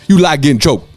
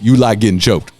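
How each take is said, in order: First: It is said in a put-on imitated voice. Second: It is said in the speaker's normal voice.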